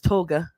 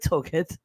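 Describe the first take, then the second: First: The word ends without a T sound. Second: The word ends with an audible T sound. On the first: "or maybe it's toga" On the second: "I don't remember if you pronounce it T or not"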